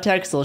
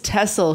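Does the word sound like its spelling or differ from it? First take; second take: like spelling; differs. First: It is pronounced just as it is spelled. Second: It is pronounced unlike its written spelling. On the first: The speaker calls it wrong. "not Texel sheep" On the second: The speaker calls it right. "the pronunciation does not match how it's written. It's Texel sheep"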